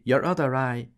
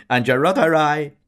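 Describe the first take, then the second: First: High, giggly and louder; two barmaids giggling in unison. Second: High, very loud laughing shout; a barmaid shouting a joke back. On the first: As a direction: giggle it together. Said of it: "In a giggling peal". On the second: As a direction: yell the punchline. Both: A narrator's reading.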